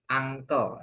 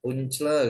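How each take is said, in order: First: Uncle said as "ANG-kel"; correct pronunciation. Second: Uncle misread letter by letter as "oon-ch-ler"; read as spelled. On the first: Teacher showing beginners how it is read, uncle as "ang-kel". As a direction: say "uncle" with an ah start and a k sound. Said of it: "bacanya uncle ya". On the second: Teacher showing beginners the spelling, uncle read as written. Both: Shown as a demonstration.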